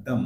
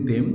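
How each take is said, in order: First: THEM as "dhum" with a neutral vowel; weak form. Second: THEM with a clear e, "dem"; full form. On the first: Teacher showing how "them" sounds, weak form. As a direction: say "দম" short, vowel reduced. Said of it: "sound হয় দম". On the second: Teacher showing how we usually say it, full form. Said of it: "আমরা ওইটাকে বলি them". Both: Shown as a demonstration.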